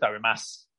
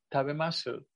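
First: The final u is dropped, ending in s. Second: The final u is faintly heard, swallowed. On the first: This is the usual everyday pronunciation. "normalmente se dice tabemas" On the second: This is the refined, delicate style used by women. "pero es una U como tragada"

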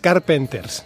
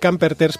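First: The name starts with 'car' and has 'penters'. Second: The name starts with 'cam' and has 'perters'. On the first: The speaker calls it right. "Y es Carpenters" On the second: The speaker calls it wrong. "estaba venga a decir Camperters"

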